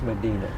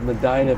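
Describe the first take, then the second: First: It is said with the local New Mexico pronunciation. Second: It is said with the Ohio pronunciation. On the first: This is how the name is said out here. The speaker calls it right. "but out here it's Medina" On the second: This is how the county name is said in Ohio. The speaker calls it wrong. "back in Ohio, we were uneducated about pronunciation, so we just said Medina"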